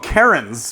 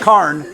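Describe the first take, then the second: First: It is said as two syllables. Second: It is said as one syllable. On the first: The speaker calls it wrong. "people call them Karens" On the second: The speaker calls it right. "so it's just Carn"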